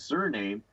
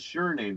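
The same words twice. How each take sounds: First: The first syllable does not sound like 'sure'. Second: The first syllable sounds like 'sure'. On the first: It is simply a family name. The speaker calls it wrong. "they want you to believe that the pronunciation is" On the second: It is an insurance name for commerce. The speaker calls it right. "but no, it's the surname, the insurance name"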